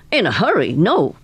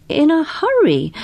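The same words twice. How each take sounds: First: Said in the usual way. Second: High, incredulous echo of his words; surprised echo. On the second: Acted. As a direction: echo it back in disbelief. Polifax echoes in surprise.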